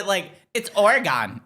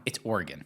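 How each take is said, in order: First: Slow, drawn-out "Oregon" with a heavy gone ending, mocking; mocking her Oregon. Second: "Oregon" said plainly and short, /ɔɹɡən/; correct Oregon. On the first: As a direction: stretch "it's Oregon" out as /ɔɹɡɑn/ to tease. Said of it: "You're like". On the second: Shown as a demonstration. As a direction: state "It's Oregon" with an unstressed final syllable, like a local. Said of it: "confirmed I said it right".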